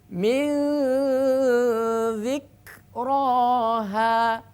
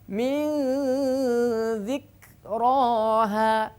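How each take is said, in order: Both takes have the same delivery.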